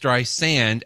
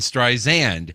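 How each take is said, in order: First: The middle consonant is a hissing S sound. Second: The middle consonant is a buzzing Z sound. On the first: The speaker calls it right. "it is Streisand, as in the sand on a beach" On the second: The speaker calls it wrong. "and not a Z, as in Streisand"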